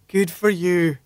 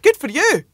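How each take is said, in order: First: It sounds sarcastic and dismissive. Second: It sounds warm and sincerely positive.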